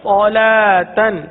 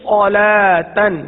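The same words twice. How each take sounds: Both takes have the same delivery.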